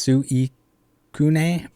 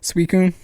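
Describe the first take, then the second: First: The name is said with Japanese-style pronunciation. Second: The name is said with English pronunciation. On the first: "Suicune is Suicune" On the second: "but in English we say Suicune"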